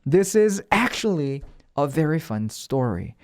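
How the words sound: The word 'actually' is said with strong stress. The speaker calls it right. "actually 같은 거는 강세를 좀 줄 때 더 그 뉘앙스가 살아요"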